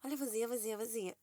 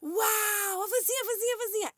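First: Her own inner echo. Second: Put-on high, amazed kid shout, much higher; imitating her toddler son. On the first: Shown as a demonstration. Mother showing the phrase looping in her head, softer. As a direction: repeat it softly like a song stuck in your head. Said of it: "a minha cabeça tá assim, ó". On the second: Mother imitating her son's delight at vans, high kid shout. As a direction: cry out like a toddler seeing a van. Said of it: "Toda vez, é tipo".

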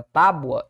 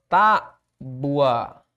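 First: Said in the usual way. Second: "tábua" slowly in two parts, tá, then bua; syllable split. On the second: Shown as a demonstration. Teacher separating syllables for the class, "tábua" slowly split TÁ-bua. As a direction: stretch "tábua" as TÁ-bua, stressed first syllable. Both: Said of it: "separação da palavra tábua".

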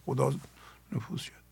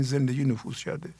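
First: Breathy whisper, almost no voice. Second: Said in the usual way. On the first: Shown as a demonstration. Teacher whispers the phrase to the listeners. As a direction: let the words fade into a hushed whisper. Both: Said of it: "بگین".

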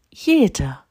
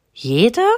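First: „Jede.“ starting high and falling firmly; confirming. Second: „Jede?“ higher with a rising, wondering end; questioning. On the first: Mama monkey answers her child, confirming „Jede.“. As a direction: assure with „Jede.“, tune coming down. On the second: Little monkey doubts every mama has one, questioning „Jede?“. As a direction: ask „Jede?“ in surprise, tune going up. Child questions, mother confirms. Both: A narrator's reading.

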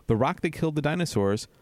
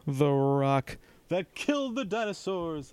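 First: Said in the usual way. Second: The Rock impression. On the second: Shown as a demonstration. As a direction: drawl it like a wrestling promo. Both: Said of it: "That's my rock impression".

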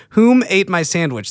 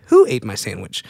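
First: "Whom" said as the wrong choice, raised and stressed; mock question with "Whom" up front. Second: Said in the usual way. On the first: Shown as a demonstration. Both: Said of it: "That's incorrect".

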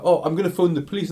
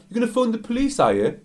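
First: High, quick warning, imitated; acted indignant threat. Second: Very high mocking question, dropping on the tag; acted taunting echo. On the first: Girl threatens the abusive customer, acted indignant. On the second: Customer mocks the girl's threat, acted taunting.

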